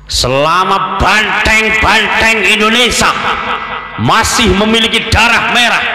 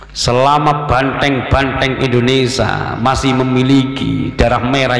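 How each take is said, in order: First: It is said in an imitated orator's accent. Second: It is said in the speaker's own normal accent. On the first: "Apa boleh saya tirukan logatnya Bung Tomo?" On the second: "Cuma logatnya tidak seperti logat saya"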